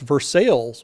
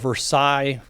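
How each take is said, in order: First: It is said the local English way. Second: It is said the French way. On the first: This is how people there say it. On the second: This is how the original place is named.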